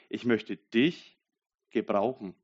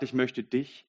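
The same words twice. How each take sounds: First: "Ich möchte dich" drawn out very slowly, weight on "dich"; slow down and land on "dich"; slow stress on dich. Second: Said in the usual way. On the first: Shown as a demonstration. God speaking to the listener, "dich" stretched slowly and stressed.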